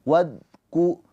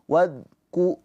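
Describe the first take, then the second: No difference in how they are said.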